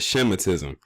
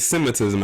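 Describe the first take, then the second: First: The word begins with an 'sh' sound. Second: The word begins with a plain 's' sound. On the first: "I said Shemitism because I know how you, you and a few others are very particular about the pronunciation of that word" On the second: "I didn't say Semitism"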